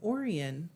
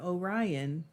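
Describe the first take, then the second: First: It is said the local Michigan way. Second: It is said the usual, standard way. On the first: "I do know Michigan pronunciations" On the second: "Instead of"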